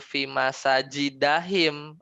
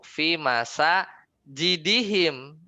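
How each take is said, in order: First: The vowel after the d is a. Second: The vowel after the d is i. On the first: The word is treated as a diptote genitive ending. The speaker calls it wrong. "Nggak dibaca" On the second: The word is possessed, so it takes the normal genitive ending. The speaker calls it right. "Ya kenapa kasroh?"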